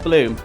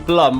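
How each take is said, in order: First: The vowel is long, rhyming with 'room'. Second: The vowel is short, rhyming with 'drum'. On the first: This is the official pronunciation. The speaker calls it right. "but it is Bloom" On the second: This is the name many people commonly use. The speaker calls it wrong. "A lot of people call you Blum rather than Bloom"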